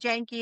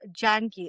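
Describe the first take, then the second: First: The name is said quickly and clipped. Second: The name is said fully and carefully. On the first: It is the casual everyday form. "the fast slang version" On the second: It is the proper traditional form. "Actual pronunciation"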